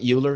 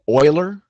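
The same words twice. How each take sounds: First: The name begins with a 'you' sound. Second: The name begins with an 'oy' sound. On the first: The speaker calls it wrong. "not Euler" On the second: The speaker calls it right. "It's it's it's Euler"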